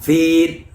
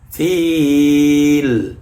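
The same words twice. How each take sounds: First: The final l is cut short, not flowing. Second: The final l flows smoothly and is sustained. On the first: The speaker calls it wrong. "Tidak dibaca fil. Tidak boleh" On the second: The speaker calls it right. "Harus dialirkan"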